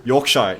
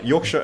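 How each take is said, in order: First: "Yorkshire" ending like "shy"; spelling pronunciation. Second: "Yorkshire" ending in a weak "shuh"; reduced ending. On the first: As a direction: say "Yorkshire" loudly as York-shy. Trying out the county's pronunciation. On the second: Repeats the county name, corrected ending. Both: Real, not acted.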